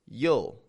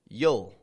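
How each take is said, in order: First: The words merge into one short contracted syllable. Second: The same.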